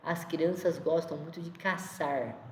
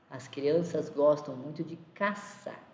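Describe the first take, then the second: First: The last word ends with an audible R. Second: The last word ends without any R sound.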